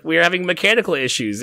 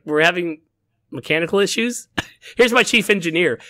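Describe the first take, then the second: First: Said in the usual way. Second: Higher, rising mock disbelief on issues; captain echoing the excuse, half-laughing in disbelief; incredulous question. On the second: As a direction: repeat the excuse as if baffled by it. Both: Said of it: "she's like".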